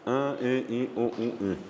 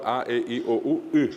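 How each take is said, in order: First: "A, E, I, O, U, I" resonating through the nose; "A, E, I, O, U, I" as nasal vowels. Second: "A, E, I, O, U, I" voiced through the mouth; "A, E, I, O, U, I" as pure oral vowels. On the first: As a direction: nasalise each of "A, E, I, O, U, I". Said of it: "o de las nasales". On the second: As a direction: list "A, E, I, O, U, I" without nasality. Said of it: "en la forma oral". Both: Shown as a demonstration.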